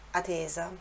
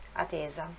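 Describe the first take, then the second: No difference in how they are said.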